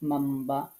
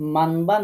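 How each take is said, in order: First: A held, nasal 'm' sound comes before 'ba'. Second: A plain 'n' sound comes before 'ba'. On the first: The speaker calls it right. "গুন্না সহকারে মাম্বা পড়তে হবে" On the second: The speaker calls it wrong. "মানবা না পড়ে"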